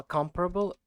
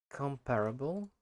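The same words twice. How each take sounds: First: "comparable" stressed high on COM; copying correct stress. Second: "Comparable" stressed on PAR, rising like a question; tentative mispronunciation. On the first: Shown as a demonstration. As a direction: say "comparable" as COM-pruh-bul, first syllable higher. Copies the dictionary's pronunciation. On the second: Real, not acted. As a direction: try "Comparable" as com-PAIR-able, unsure. Tries word before hearing dictionary.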